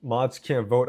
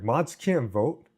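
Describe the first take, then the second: First: Said in the usual way. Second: "Mods can't vote?" slowed, rising at the end; slow, disbelieving question on "Mods can't vote?". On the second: Real, not acted.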